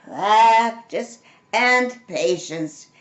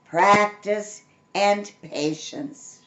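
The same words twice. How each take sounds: First: Slow, measured motherly voice; mother's saying. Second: Slow, measured motherly voice; drawn out like a remembered lesson; mother's saying again. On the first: Narrator voicing mother's advice, slow and measured. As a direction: spell it out slowly like a patient mother. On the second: Narrator repeating mother's motto slowly. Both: A narrator's reading. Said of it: "she would say".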